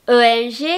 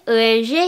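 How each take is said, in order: No difference in how they are said.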